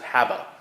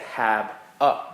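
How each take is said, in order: First: The two words run together without a pause. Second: There is a pause between the two words.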